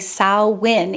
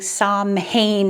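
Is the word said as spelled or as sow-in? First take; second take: sow-in; as spelled. First: The word is said like sow-in. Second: The word is said as it is spelled. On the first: The speaker calls it right. "you're noticing I'm saying Samhain" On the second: The speaker calls it wrong. "our English spelling Samhain is what it looks like"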